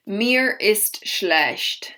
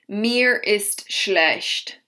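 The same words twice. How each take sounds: The two takes are said the same way.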